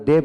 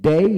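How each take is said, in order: First: ডে with a short, single e sound; clipped-off e ending on ডে, without the i; short vowel in ডে. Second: ডেই with e gliding into i; teacher's careful ডেই, ending on an i glide. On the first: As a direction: say ডে as in everyday speech, no glide. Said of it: "আমরা ডে বলি". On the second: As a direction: sound out the full diphthong at the end of ডেই. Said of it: "ডে বলে উচ্চারণ তো হবে". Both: Shown as a demonstration.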